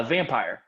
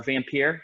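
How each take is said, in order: First: Said in the usual way. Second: "Vampire" with the ending said like "peer"; alternative pronunciation. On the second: Shown as a demonstration. Host offering another way to say the game's title, "Vampire" as vam-peer. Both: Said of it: "however you wanna pronounce that".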